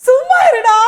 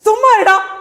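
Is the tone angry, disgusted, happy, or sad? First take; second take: happy; angry. First: It is said in a happy tone. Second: It is said in an angry tone. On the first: "சந்தோஷமா" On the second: "சொல்ல போறீங்க கோவமா"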